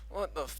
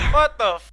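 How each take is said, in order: First: It is said quietly. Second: It is said loudest.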